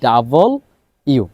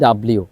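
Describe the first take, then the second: First: The letter name is said as two parts. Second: The letter name is squeezed into one word. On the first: The speaker calls it right. "আমাদেরকে শুদ্ধভাবে উচ্চারণ করতে হবে" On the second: The speaker calls it wrong. "আমরা সারা জীবন পড়ে আসছি ডাব্লিউ, এটা রং"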